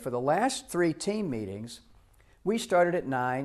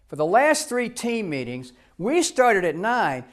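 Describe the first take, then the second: First: The tone is plain and neutral. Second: The tone is loaded and pointed. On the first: It states only the facts. The speaker calls it right. "Now that's really clean" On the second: It adds blame and interpretation to the facts. The speaker calls it wrong. "you can put spin in it with your tone of voice"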